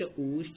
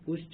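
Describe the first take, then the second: First: The vowel is held for two beats. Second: The vowel is held for one short beat. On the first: "फिर दीर्घ मात्रा" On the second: "पहले ह्रस्व मात्रा"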